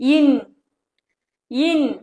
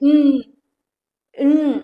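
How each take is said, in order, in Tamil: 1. n ஒலிக்கு முன் ஒரு குறுகிய உயிர் ஒலி வருகிறது. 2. n ஒலி உயிர் இல்லாமல் தனியாகச் சொல்லப்படுகிறது. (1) "சொல்லக்கூடாது" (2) "அப்படின்னு ப்ரொனவுன்ஸ் பண்ணணும்"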